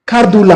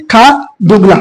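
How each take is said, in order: First: खारदूला said quickly with no ng sound; खारदूला, a clipped two-part name; short form Khardula. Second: खारदुंगला with a clear ng before ला; full name Khardungla. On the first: Teacher to students naming the pass, short खारदूला. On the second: Teacher correcting students to full खारदुंगला. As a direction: spell out खारदुंगला in full, nasal ng in the middle. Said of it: "खारदूला बोलेंगे". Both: Shown as a demonstration.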